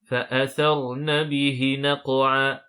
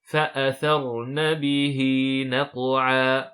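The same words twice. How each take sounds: First: The vowel after the h is kept short. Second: The vowel after the h is held long. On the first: The speaker calls it wrong. "Attention à ne pas dire" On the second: The speaker calls it right. "on doit prolonger la lettre ha avec la kasra de deux temps"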